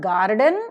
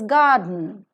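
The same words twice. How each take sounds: First: An R sound is pronounced after the first vowel. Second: No R sound is pronounced after the first vowel. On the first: The speaker calls it wrong. "So it is not garden" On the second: The speaker calls it right. "it is garden"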